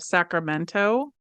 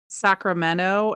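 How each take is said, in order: First: The T sound is clearly pronounced in the word. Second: The T sound is dropped from the word. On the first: "instead of Sacramento" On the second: "we say things like Sacramento"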